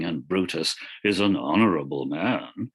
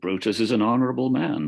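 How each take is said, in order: First: It is said with heavy, mocking irony. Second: It is said plainly, without irony.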